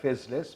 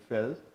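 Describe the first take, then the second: First: The name is said with both s sounds. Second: The name is said with no s sounds. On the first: The speaker calls it wrong. "it looks like Fezless, but no, don't say that" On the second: The speaker calls it right. "sounds like Chateau de Fel"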